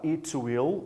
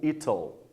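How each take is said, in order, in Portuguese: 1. As duas palavras são ditas separadamente, por extenso. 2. As duas palavras se fundem em uma sílaba curta. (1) "Você pode falar it will" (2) "Lembra que a gente pode abreviar"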